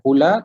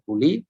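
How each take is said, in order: First: The word ends with an 'a' vowel. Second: The word ends with an 'i' vowel. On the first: "kita tak baca qula" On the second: "tak baca quli"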